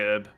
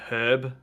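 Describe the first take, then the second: First: The word starts without an h sound. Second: The word starts with an h sound. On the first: "he will say herb" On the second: "I use it with the H to herb"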